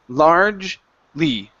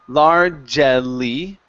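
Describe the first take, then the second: First: The word is said with two syllables. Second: The word is said with three syllables. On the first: The speaker calls it right. "It's only largely" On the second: The speaker calls it wrong. "we're not going to pronounce that E. Okay, so we don't want to say largely"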